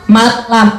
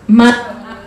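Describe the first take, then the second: The two takes are said the same way.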